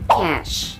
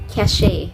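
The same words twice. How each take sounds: First: The word sounds exactly like 'cash'. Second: The word does not sound like 'cash'. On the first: The speaker calls it right. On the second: The speaker calls it wrong.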